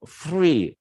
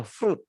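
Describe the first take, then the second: First: "free" for French fruit, ending silent; French-style "free", open vowel ending; French pronunciation. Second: "fruit" said the English way, as froot; higher English "fruit", t sounded; English pronunciation. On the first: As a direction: say "free" as French frwee, no final t. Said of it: "kalau bahasa Prancisnya free". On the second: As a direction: say "fruit" with a long oo and final t. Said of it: "kalau bahasa Inggris ini dibaca fruit". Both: Shown as a demonstration.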